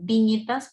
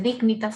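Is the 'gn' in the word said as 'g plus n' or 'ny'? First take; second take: ny; g plus n. First: The g and n merge into one 'ny' sound. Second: The g and n are said as separate sounds. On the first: The speaker calls it right. "sino dignitas, porque la G y la N en latín se pronuncia como ñ" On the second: The speaker calls it wrong. "no se dice dignitas"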